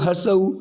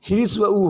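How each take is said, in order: First: हर्ष उ said as harsh, with an r and sh sound; common wrong pronunciation. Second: ह्रस्व उ said hrasva, with the v sound; correct pronunciation. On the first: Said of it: "उ में बोलते हैं हम लोग हर्ष उ". (हर्ष उ को आम बोलचाल की गलत ध्वनि में) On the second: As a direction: say ह्रस्व उ carefully as hri-sva oo. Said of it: "ह्रस्व उ होता है". (ह्रस्व उ को शुद्ध उच्चारण में) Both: Shown as a demonstration.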